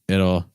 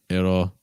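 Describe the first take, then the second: No difference in how they are said.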